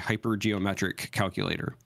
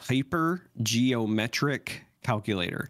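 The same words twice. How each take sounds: First: The phrase is said at normal speed. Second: The phrase is said slowly and carefully.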